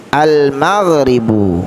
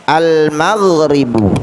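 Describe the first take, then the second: No difference in how they are said.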